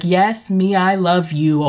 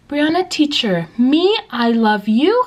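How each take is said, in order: First: Said in the usual way. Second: Put-on high child's voice ending in a question; slow, high, questioning kid voice; imitating young student. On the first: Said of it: "I was like". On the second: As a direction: mimic a pupil asking, drawn out and rising. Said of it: "raise their hand in the middle of my lesson".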